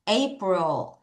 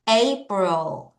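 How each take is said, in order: The two takes are said the same way.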